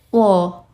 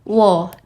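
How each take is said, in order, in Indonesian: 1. Nadanya turun tajam dan mendadak. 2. Nadanya turun tajam dan mendadak.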